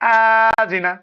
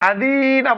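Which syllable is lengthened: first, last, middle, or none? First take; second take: first; middle. First: The first syllable is drawn out long. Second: The middle syllable is drawn out long. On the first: "এটাও ভুল। হামজায় টানলাম প্রথমে।" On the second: "আদি না বললে ভুল হলো, দালে টানলাম।"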